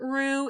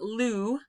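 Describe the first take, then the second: First: It starts with an English-style R sound. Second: It starts with a clear L sound. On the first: "It's not ru" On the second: "it's not lu"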